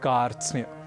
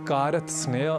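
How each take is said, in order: First: The five consonants are joined without extra vowels. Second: One extra vowel splits the consonant cluster. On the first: The speaker calls it right. "हमें कहना है कार्त्स्न्य" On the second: The speaker calls it wrong. "इसे कारत्सनय, कारत्स्नय आदि न कहकर"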